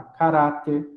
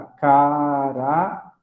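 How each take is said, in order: First: Said in the usual way. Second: "caráter" drawn out as ca-rá-ter; syllable by syllable. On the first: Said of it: "Então, eu tenho lá caráter". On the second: Shown as a demonstration. Teacher finding the accent for class, "caráter" slowly split into syllables. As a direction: stretch each syllable of "caráter", pausing before the last. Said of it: "o acento vai aqui na sílaba tônica".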